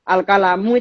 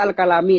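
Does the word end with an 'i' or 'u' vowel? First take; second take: u; i. First: The word ends with an 'u' vowel. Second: The word ends with an 'i' vowel.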